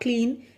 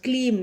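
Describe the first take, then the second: First: The word ends with an n sound. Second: The word ends with an m sound. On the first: The speaker calls it wrong. "Not क्लीन" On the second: The speaker calls it right. "It's क्लीम. ... एम is not एन, it's एम"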